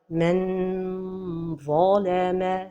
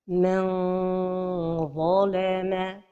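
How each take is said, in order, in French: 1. La langue touche le palais, donnant un n clair. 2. Le n est caché, la langue proche mais sans toucher. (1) "La première erreur est de coller le bout de la langue au palais supérieur" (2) "La prononciation correcte"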